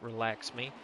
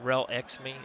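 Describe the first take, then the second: First: The first word sounds like 'relax'. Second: The first word sounds like 'rel-ex'. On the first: The speaker calls it right. "technically pronounced Relax Me" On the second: The speaker calls it wrong. "I was saying it wrong"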